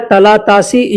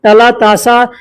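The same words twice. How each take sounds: First: तलातासी with a final long ee; ee-ending variant. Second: तलातासा with a final long aa; aa-ending variant. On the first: (अंत में ई वाला तलातासी) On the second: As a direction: end तलातासा on an open aa. (अंत में आ वाला तलातासा) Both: Shown as a demonstration. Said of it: "तासी ऐसे बोलते हैं".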